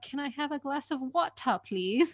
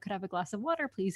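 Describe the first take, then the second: First: Water is said with a crisp British-style T. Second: Water is said with an American D-like T.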